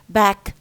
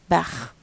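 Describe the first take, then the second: First: The word ends in a hard k stop. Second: The word ends in a raspy kh sound. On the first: "instead of saying back" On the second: "they pronounce a k sound when it comes finally uh, as a kha"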